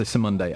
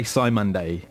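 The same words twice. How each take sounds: First: Simon Day with a short "sim" first syllable; short i at the start of Simon Day, as in "him"; variant pronunciation. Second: Simon Day with a long "sigh" first syllable; "SIGH-mun-day" for Simon Day; variant pronunciation. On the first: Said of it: "Some people say Simon Day". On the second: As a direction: say Simon Day like the man's name Simon plus "day". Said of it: "some people say Simon Day". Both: Shown as a demonstration.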